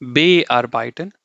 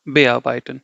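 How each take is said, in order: First: BE drawn out slowly and set apart from arbeiten; slow, overemphasized be in Bearbeiten; wrongly stressed be. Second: Bearbeiten with be passed over lightly, stress on AR; unstressed be. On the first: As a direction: counterexample Bearbeiten with heavy BE. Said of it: "German will not read like this". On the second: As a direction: slip quickly off be into arbeiten. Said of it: "I'm not emphasizing the be". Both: Shown as a demonstration.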